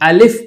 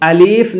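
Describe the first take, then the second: First: The middle vowel is kept short. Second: The middle vowel is drawn out long. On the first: The speaker calls it right. "बल्कि इसे हम अलिफ पढ़ेंगे" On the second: The speaker calls it wrong. "इसको हम अलीफ नहीं पढ़ेंगे"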